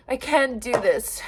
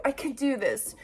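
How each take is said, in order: First: "I can do this" with "can" stressed, falling at the end; self-reassurance, stress on can. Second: "I can do this" with "do" stressed, said softer, falling; a soft self-pep talk, weight on "do"; self-reassurance, stress on do. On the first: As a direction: insist to yourself "I can do this", hitting "can". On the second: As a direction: quietly tell yourself "I can do this", landing on "do". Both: Real, not acted.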